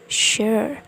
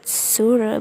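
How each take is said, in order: First: No extra vowel sound is heard at the end. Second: An extra vowel sound is heard at the end. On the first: The speaker calls it right. "the E sound is deleted" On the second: The speaker calls it wrong. "it's not sure"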